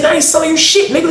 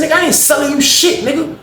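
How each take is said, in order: First: Repeated angry refusal, pitched way up. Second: Retold angry refusal, pitched way up. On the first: Retold or imitated. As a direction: say it again, high and hard. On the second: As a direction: snap it back at him, high. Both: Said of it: "I said".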